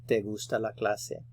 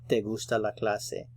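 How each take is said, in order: Both takes have the same delivery.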